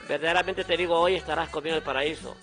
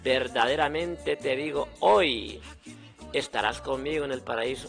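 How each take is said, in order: First: There is no pause right after 'hoy'. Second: There is a pause right after 'hoy'.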